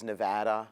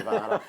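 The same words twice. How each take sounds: First: Nevada is said with an American pronunciation. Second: Nevada is said with a non-American pronunciation. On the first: This is how the locals say it. The speaker calls it right. "she's American... she says Nevada" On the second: This is how an outsider says it. The speaker calls it wrong. "not Nevada"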